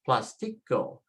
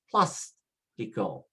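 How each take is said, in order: First: The stress is on the next-to-last syllable. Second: The stress is not on the next-to-last syllable. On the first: The speaker calls it wrong. "we should be pronouncing it as plastico, plastico, next to the last" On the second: The speaker calls it right. "change it by following the accent"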